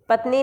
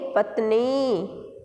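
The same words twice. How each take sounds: First: The final vowel is a short 'i'. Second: The final vowel is a long 'ee'. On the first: The speaker calls it wrong. "पत्नी नहीं" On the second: The speaker calls it right. "न पर बड़ी ई का प्रयोग होगा"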